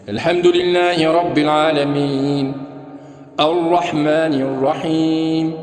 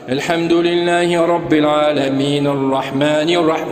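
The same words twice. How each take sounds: First: There is a pause after the first verse. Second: The two verses run together without a pause. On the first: Each verse is stopped at its end. The speaker calls it right. "C'est posé. C'est bien posé" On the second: The verses are joined into one stretch. The speaker calls it wrong. "Voilà yasiluha. Il ne faisait pas ça"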